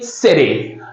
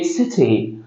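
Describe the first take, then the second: First: It is said in an American accent. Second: It is said in a British accent. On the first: "In American accent, they say city" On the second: "In British one, they say city"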